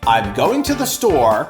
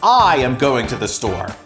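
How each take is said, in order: First: The subject and verb are contracted to 'I'm'. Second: The subject and verb are said fully as 'I am'. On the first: The action is normal. "the contraction gives us the impression that my action is normal" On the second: The action is uncommon and the speaker wants that noticed. "The second way makes it sound as though I don't usually go to the store"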